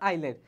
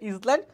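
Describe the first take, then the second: First: The s is silent, starting with eye. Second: The s is sounded, as spelled. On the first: The speaker calls it right. "উচ্চারণ হচ্ছে আইল্যান্ড" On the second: The speaker calls it wrong. "বানান হচ্ছে ইসল্যান্ড"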